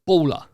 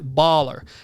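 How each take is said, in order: First: It is said with a British accent. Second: It is said with an American accent. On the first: The speaker calls it wrong. "me going, he's a baller. Like, it sounds horrendous" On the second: The speaker calls it right. "sounds so much better"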